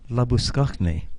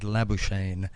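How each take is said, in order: First: The name is said with Afrikaans pronunciation. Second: The name is said with an English-style guess. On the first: A native speaker's correction of the name. The speaker calls it right. "Oh, you mean Labuschagne?" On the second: A newcomer's guess at an unfamiliar name. The speaker calls it wrong. "I'd never seen the name"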